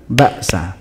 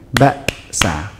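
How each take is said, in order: First: "baksa" run together with no gap after ba; no pause. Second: "baksa" stopped dead after ba, then sa a beat later; clear pause. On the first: Teacher shows the wrong reading, hurried unbroken "baksa". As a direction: join ba straight onto sa in "baksa". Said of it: "bukan baksa". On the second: Teacher shows the right reading, gap splitting "baksa". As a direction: hold a silent beat inside "baksa". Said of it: "Seperti ada jeda di situ". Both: Shown as a demonstration.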